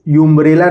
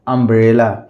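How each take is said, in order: First: The word begins with a 'yoo' sound. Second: The word begins with an 'uh' sound. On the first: The speaker calls it wrong. "इसको यूम्ब्रेला नहीं पढ़ेंगे" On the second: The speaker calls it right. "इसको पढ़ेंगे अम्ब्रेला"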